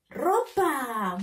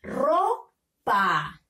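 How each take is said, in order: First: Ropa blended into one word; teacher joining RO and PA into Ropa; syllables joined. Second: Ropa split as RO, pause, PA; teacher's two-beat sounding-out of Ropa; syllable by syllable. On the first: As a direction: read "Ropa" whole with no gap, falling at the end. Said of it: "unirlo para formar la palabra". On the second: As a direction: sound out "Ropa" with a clear gap between syllables. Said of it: "Tenemos que leer". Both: Shown as a demonstration.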